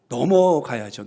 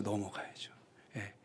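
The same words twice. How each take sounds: First: Said in the usual way. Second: 넘어가야죠를 숨소리로 속삭이듯; 혼잣말처럼 넘어가야죠를 속삭여; 속삭임. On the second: Shown as a demonstration. (넘어가야죠를 작게 속삭이기)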